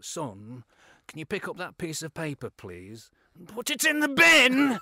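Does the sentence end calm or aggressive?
aggressive. The sentence turns aggressive towards the end.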